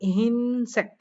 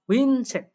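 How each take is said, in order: First: The first syllable is pronounced 'hin'. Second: The first syllable is pronounced 'huin'. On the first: The speaker calls it right. "এটা উচ্চারণ করবে" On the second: The speaker calls it wrong. "But এটা হবে না"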